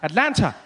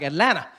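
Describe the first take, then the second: First: The middle T sound is clearly pronounced. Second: The middle T sound is dropped. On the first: The speaker had just arrived in the city. "when I got here, every time I said it, I would say Atlanta" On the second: The speaker is adopting the local way of saying it. "The T was gone"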